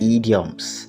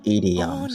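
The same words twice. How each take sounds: First: The word is pronounced the common Nigerian way. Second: The word is pronounced the standard way. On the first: The speaker calls it wrong. "Try not to say idioms, idioms, because that is the way a lot of people say it in Nigeria, and it is not correct" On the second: The speaker calls it right. "The correct pronunciation is"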